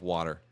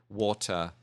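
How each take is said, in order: First: It is said with an American accent. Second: It is said with a British accent.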